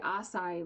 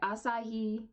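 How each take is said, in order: First: The middle h sound is dropped. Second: The middle h sound is pronounced. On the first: "I feel like they say Asai" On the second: "they don't say Asahi"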